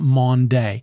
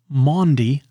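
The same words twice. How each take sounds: First: The word ends with a 'day' sound. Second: The word ends with a 'dee' sound. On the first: The speaker calls it wrong. "not Maundy" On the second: The speaker calls it right. "it ends with a D-Y, so it's Maundy"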